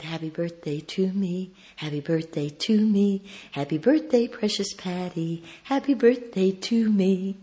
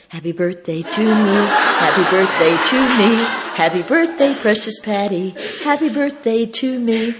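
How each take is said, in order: First: Gentle, measured birthday chant; tender birthday routine. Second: Loud, high celebratory chant; joyful birthday routine. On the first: Speaker on the phone to her ailing friend, tender chant. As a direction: softly coax a friend's memory. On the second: Speaker to friend's wife, reviving the routine joyfully. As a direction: belt out the birthday chant happily. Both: Retold or imitated.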